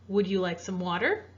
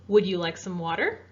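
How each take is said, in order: No difference in how they are said.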